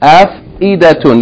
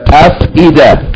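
First: The word ends with a t and -un. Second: The word ends in a bare a sound. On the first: The reader goes on without stopping. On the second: The reader stops at this word.

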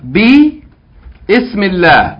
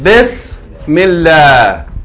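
First: Bi and ismillah are said as separate parts. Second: Bi and ismillah run together as one word. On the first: "but this is Hamzatul Wasl" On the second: "we're going to connect what's before to what's after"

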